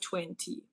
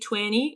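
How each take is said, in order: First: The T sound in the middle is pronounced. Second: The T sound in the middle is dropped. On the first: "instead of" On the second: "in U S they often don't pronounce the T. So for example, they say twenty"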